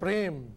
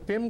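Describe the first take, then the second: First: The word is said with a clear r sound. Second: The word is said without the r sound. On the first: The speaker calls it right. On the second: The speaker calls it wrong.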